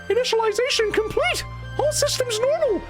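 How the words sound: A young-sounding robot voice is used.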